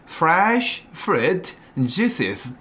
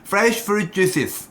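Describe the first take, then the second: First: Each sound is said slowly and clearly. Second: The sounds are mumbled and run together. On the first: The speaker calls it right. "이렇게 천천히" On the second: The speaker calls it wrong. "이렇게 발음 닫고 읽을 겁니다"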